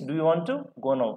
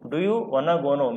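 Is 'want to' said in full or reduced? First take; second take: full; reduced. First: 'Want to' is said as two separate words. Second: 'Want to' is blended into one short word. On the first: "means" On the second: "వన్నా means I వాంట్ టు"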